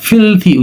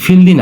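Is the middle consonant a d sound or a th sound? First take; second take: th sound; d sound. First: The middle consonant is said as a th. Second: The middle consonant is said as a d. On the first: The speaker calls it right. "ফিলথি উচ্চারণ হবে" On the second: The speaker calls it wrong. "এটা ফিলদি না"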